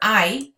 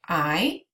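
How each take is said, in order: First: The voice stays level or falls at the end. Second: The voice rises at the end. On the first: It states that something exists. "It means there is and there are" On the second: It asks whether something exists. "raise your voice inflection"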